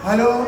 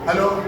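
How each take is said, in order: First: The greeting is said in a soft, hushed voice. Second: The greeting is said in a normal, open voice. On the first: Something is being hidden. The speaker calls it wrong. "ഇങ്ങനെ blade വെള്ളത്തിലിട്ട പോലെ" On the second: Nothing is being hidden. The speaker calls it right. "അങ്ങനെയല്ലേ phone വിളിക്കേണ്ടത്?"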